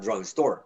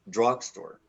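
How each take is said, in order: First: The stress is on the second part. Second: The stress is on the first part. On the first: The speaker calls it wrong. "Not drugstore" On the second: The speaker calls it right. "the stress is on the first component"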